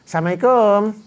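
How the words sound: It sounds bright and warm. The greeter is sincerely glad to greet. The speaker calls it right. "dengan wajah yang berseri-seri, dengan senyum"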